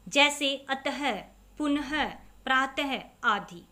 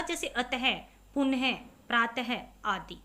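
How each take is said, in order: First: अतः, पुनः, प्रातः each ending in a short breathy ह, slow; teacher models visarga words; visarga demo. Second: Teacher repeats the visarga examples. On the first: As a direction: stress the final ह sound. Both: Shown as a demonstration. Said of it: "बाद में ह का sound आएगा".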